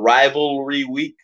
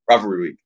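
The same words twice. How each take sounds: First: The phrase is said slowly. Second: The phrase is said very quickly. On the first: The speaker calls it wrong. "if you try to slow it down and go rivalry week, you're going to sound ridiculous" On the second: The speaker calls it right. "You have to say it as quickly as possible"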